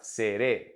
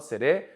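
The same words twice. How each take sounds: First: "seré" with firm stress on the last é; stressed final syllable. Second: "seré" said without the stress on the final é; the wrong take, "seré" with its last syllable left unstressed; unaccented version. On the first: Teacher modelling seré for students, stress on the final é. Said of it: "use our intonation and our stress". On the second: Teacher showing students how not to say seré, final syllable unstressed. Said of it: "we're gonna raise it there". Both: Shown as a demonstration.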